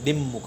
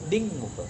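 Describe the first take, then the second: First: The nasal is a doubled m sound. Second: The nasal is an ng sound. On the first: The speaker calls it wrong. "આ મ double કરી દેશે દિમમુખ એમ કરશે" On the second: The speaker calls it right. "કંઠમાંથી બોલ"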